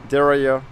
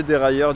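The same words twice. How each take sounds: First: "dérailleur" in a French speaker's attempted English accent. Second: Said in the usual way. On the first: Shown as a demonstration. Cyclist showing viewers the English word, attempted English accent. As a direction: say "dérailleur" the English way, ending in an open "-ya". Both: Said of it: "avec mon super accent".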